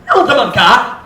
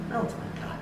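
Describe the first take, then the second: First: Loud rising sharp "Na unsa man ka?"; loud accusing demo; harsh tone. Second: Very soft quiet "Na unsa man ka?"; hushed caring demo; gentle tone. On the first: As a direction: snap the question at them. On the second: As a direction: ask it softly with care. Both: Shown as a demonstration. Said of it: "Listen to the difference here".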